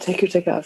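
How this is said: It is said in a soft, seductive tone. It is meant seriously. "I say it more sexy"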